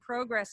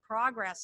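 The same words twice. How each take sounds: First: The word is said with a Canadian pronunciation. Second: The word is said with an American pronunciation. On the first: The speaker's origins slip into her speech. "speaking to my Canadian roots and saying progress" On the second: This is the form expected by the audience. "instead of progress"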